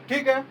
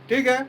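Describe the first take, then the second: Both takes have the same delivery.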